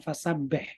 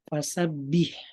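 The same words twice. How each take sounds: First: The last vowel sounds like e. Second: The last vowel sounds like i. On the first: The speaker calls it wrong. "Dia bilang fasabih" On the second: The speaker calls it right. "harusnya pakai i"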